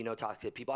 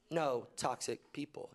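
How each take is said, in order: First: Said in the usual way. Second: NO toxic people, slow and deliberate; slow emphatic repeat. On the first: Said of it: "spelled out after acronym". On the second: Shown as a demonstration. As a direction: let "No toxic people" land word by word. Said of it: "repeated slowly for emphasis".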